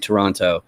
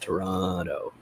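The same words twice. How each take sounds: First: The middle T is a clear T sound. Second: The middle T becomes a D sound.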